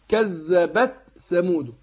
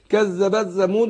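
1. كل حرف ينطق بوضوح ومنفصل. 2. الحروف مدغمة ومبلوعة ببعضها. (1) "عشان ما تغمهمش في بعض" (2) "وياكلها"

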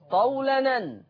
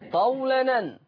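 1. تُحذف الهمزة وتتصل الكلمتان. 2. تُحذف الهمزة وتتصل الكلمتان.

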